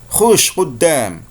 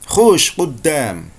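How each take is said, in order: The two takes are said the same way.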